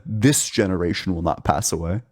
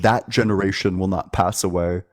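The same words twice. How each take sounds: First: "This" emphasized as the actual wording; single out "This", ending on a rise; stress on this. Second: "that" emphasized as the hypothetical wording; single out the word "that"; stress on that. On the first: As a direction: lean on "This" to correct the point. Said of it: "But he said". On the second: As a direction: lean on "that", then run on evenly. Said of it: "he would have used the word". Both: Shown as a demonstration.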